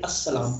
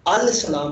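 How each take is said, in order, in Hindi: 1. 'l' दोहरे 's' की आवाज़ में मिल जाता है। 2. 's' से पहले 'l' साफ़ बोला जाता है। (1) "अस्सलाम पढ़ते हैं" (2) "हम इसको अल सलाम नहीं पढ़ते"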